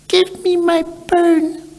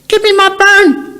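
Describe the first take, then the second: First: It is said quietly. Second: It is said loudly.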